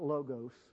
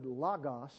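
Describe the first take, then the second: First: The first vowel is a long o. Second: The first vowel is a short o. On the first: The speaker calls it wrong. "not logos. And that's what we have in America, a logo" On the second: The speaker calls it right. "omicron in Greek is pronounced like omelette"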